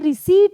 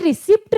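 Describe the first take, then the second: First: The p sound is silent before the t. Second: The p sound is pronounced before the t. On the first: The speaker calls it right. "ये रिसीट है, P silent होता है" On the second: The speaker calls it wrong. "ये रिसिप्ट नहीं है"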